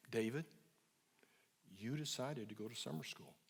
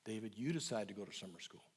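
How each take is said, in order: First: Low, quiet, unhurried and calm; soft, low and slow. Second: Low and quiet, calm repetition; soft, low and slow. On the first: Therapist to angry teen son, soft and low. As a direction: say it gently and low, no pressure. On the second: Therapist to teen, the thirtieth calm quiet repeat. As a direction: repeat it gently, no edge. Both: Retold or imitated. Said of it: "I just kept saying soft, low, and slow".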